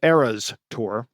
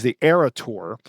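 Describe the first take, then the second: First: "Eras" said carefully and slowly, with a clear final s; "Eras Tour", slowing down to sound the s; corrected pronunciation. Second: "Era" said without the final s, as Era Tour; "the Era Tour", dropping the s on Era; mispronounced title. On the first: Shown as a demonstration. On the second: Real, not acted. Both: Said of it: "I'm gonna say that properly".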